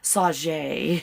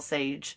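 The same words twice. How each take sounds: First: The name is said with a put-on French pronunciation. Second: The name is said with plain English pronunciation.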